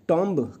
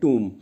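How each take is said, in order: First: The vowel is an 'aw' sound with a b. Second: The vowel is a long 'oo' sound. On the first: The speaker calls it wrong. "टॉम्ब कह कहा करते थे हम, पर ये गलत enunciation होगा" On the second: The speaker calls it right. "T O M B को कहते हैं टूम"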